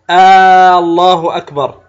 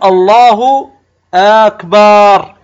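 First: The opening vowel of Allah is lengthened. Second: The vowel after b in akbar is lengthened. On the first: "بعضهم يمد همزة لفظ الجلالة" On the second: "وكأنك تمد الباء"

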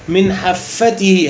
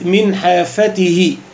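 First: The f sound is held and doubled. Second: The f sound is short and single. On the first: The speaker calls it wrong. "بعض الناس تقول من حافته من حافته هكذا، هذا خطأ" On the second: The speaker calls it right. "بفتح الفاء دون تشديد"

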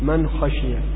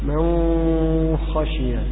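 First: The n is pronounced clearly before the kh. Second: The n is hidden into the following kh. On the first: This follows the common reading tradition. "أما نحن نقول" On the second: This follows a minority reading tradition. "هذا أبو جعفر"

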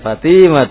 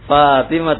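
First: The second vowel is held long. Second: The first vowel is held long. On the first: The speaker calls it wrong. "bukan Fatimah tuh ya" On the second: The speaker calls it right. "Fatimah tuh bukan"

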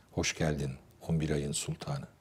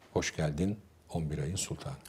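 No difference in how they are said.

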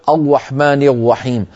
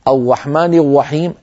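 First: The r sounds like a w, using the lips. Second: The same.

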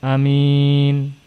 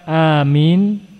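First: The first vowel is kept short. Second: The first vowel is drawn out long. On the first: "Dengan qasr pendek namun mimnya tidak ditasydid" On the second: "bil mad wa takhfifil mim"

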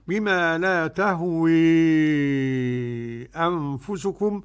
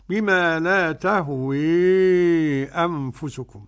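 First: The final vowel is strongly tilted toward e. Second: The final vowel is strongly tilted toward e.

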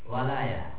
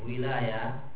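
First: The first vowel is an 'a' sound. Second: The first vowel is an 'i' sound. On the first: It means help or victory. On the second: It means authority or dominion.

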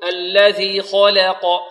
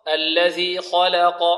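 First: The vowel after the L leans toward e. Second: The vowel after the L is a plain open a. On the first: The speaker calls it wrong. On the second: The speaker calls it right.

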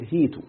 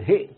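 First: A long i vowel replaces the glottal stop. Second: A glottal stop follows the first vowel. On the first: "يعني قلب الهمزة ياء" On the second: "بدل ما هئت"

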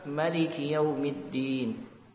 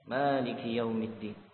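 First: The first vowel of maliki is short. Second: The first vowel of maliki is long. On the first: "pakar qiraah yang lain membaca maliki يوم الدين" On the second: "membaca maliki yang dipanjangkan ma"

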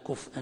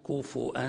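First: No vowel follows the f before the glottal stop. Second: A vowel follows the f, then a glottal stop. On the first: "بالإسكان" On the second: "بالإشباع"

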